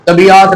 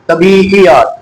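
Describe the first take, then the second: First: The word is said in a careless, simplified way. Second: The word is said with its full Urdu sounds. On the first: The speaker calls it wrong. "तबीयात नहीं" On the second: The speaker calls it right. "क्या मैं नुकते लगा दूं"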